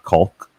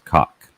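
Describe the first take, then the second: First: The word is said with an L sound. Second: The word is said without an L sound. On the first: The speaker calls it wrong. "mispronounce it with the L" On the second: The speaker calls it right. "It is cock"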